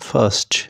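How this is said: It is said in a British accent.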